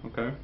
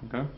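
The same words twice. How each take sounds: No difference in how they are said.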